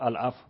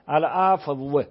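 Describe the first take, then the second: First: The final w sound is barely heard. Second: The final w sound is clearly and separately pronounced. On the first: The speaker calls it right. "واو داری میگی، شنیده نمیشه" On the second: The speaker calls it wrong. "اینجوری نمیگی شما"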